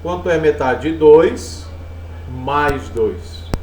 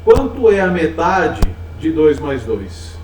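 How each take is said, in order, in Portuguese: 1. Há uma pausa depois do primeiro "dois". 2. Não há pausa no meio.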